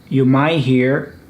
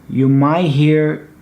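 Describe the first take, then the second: No difference in how they are said.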